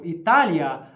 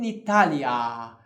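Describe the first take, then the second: First: The last syllable is short. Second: The last syllable is stretched out long. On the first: The word is in the nominative case. "no nominativo" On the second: The word is in the ablative case. "de esticar o tempo do, da última sílaba"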